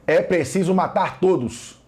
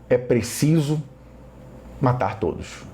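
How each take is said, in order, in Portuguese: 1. É dito com um tom duro e agressivo. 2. É dito com um tom triste e arrependido. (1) "eu estou sendo agressivo" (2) "eu já estou lamentando por essa ordem"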